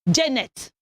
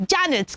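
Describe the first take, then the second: First: Janet as "JEN-net"; an "e" vowel at the start of Janet; wrong pronunciation. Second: Janet as "JAN-it"; short "a" in Janet; correct pronunciation. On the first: Teacher showing a misspoken name, "Jennet" for Janet. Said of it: "You are not Janet". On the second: Teacher modelling the name, careful Janet. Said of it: "Your name is Janet". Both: Shown as a demonstration.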